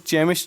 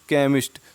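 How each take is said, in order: First: The word begins with a 'ch' sound. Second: The word begins with a 'k' sound. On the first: The speaker calls it wrong. "हम इसको चेमिस्ट नहीं पढ़ेंगे" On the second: The speaker calls it right. "केमिस्ट बोलते हैं"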